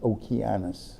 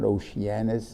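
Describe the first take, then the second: First: The c is hard, like k. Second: The c is soft, like sh or s. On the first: The speaker calls it right. "it's a hard sea" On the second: The speaker calls it wrong. "It's not Oceanus"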